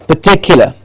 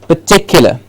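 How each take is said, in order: The two takes are said the same way.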